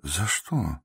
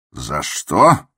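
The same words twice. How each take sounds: First: Soft, quiet, puzzled question; gently. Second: Louder, angry shouted echo. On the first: The doctor asks the raging patient why, softly. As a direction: ask it mildly, almost under your breath. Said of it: "спросил мягко". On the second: The patient shouts the doctor's question back at him. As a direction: throw the question back with a yell. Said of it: "крикнул Иван Дмитрич". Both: A narrator's reading.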